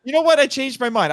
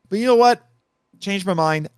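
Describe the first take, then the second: First: High, punchy "You know what?" then "I changed my mind"; mock dramatic reversal. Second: High, punchy "know" then casual "Changed my mind"; mock dramatic reversal. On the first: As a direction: callback to his earlier switch, played for laughs. Repeats his own earlier joke. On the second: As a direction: play the sudden change of heart for laughs. Jokey reversal of own pick.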